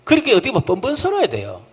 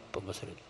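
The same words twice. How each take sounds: First: Said in the usual way. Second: "뻔뻔스러워야" whispered softly; whispered echo. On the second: Shown as a demonstration. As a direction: hush the repeat of "뻔뻔스러워야 돼요". ("뻔뻔스러워야 돼요"를 속삭이며) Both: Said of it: "repeated as whisper".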